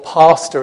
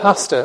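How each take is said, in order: First: The first vowel is a long southern A. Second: The first vowel is a short northern A. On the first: "as you might say down here" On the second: "sorry about the short A's there, as I'm from Yorkshire originally"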